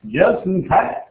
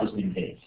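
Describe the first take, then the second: First: Rising, sing-song "Just in case"; playful echo. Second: Said in the usual way. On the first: Acted. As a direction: toss it back lightly, teasing. Teacher repeats phrase twice.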